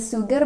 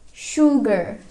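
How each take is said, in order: First: It begins with a thin s sound. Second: It begins with a thick sh sound. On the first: The speaker calls it wrong. "bukan dibaca sugar" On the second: The speaker calls it right. "but it's sugar. Dibaca tebal ya"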